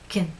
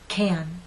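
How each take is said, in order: First: The vowel is weak, lips fully relaxed. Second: The vowel is long and strong. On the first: "the alternative unstressed pronunciation" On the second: "The first one is stressed"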